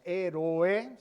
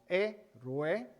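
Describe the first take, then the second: First: The final vowels are separate, three syllables. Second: The final vowels are joined, two syllables. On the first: The speaker calls it wrong. "no decimos héroe" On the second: The speaker calls it right. "implica unir hiatos"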